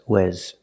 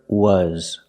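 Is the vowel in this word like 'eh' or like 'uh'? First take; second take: eh; uh. First: The vowel sounds like 'eh' as in 'bed'. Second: The vowel sounds like 'uh' as in 'cup'. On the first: The speaker calls it wrong. "The word is not pronounced wes" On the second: The speaker calls it right. "We're using the short sound like cup and up"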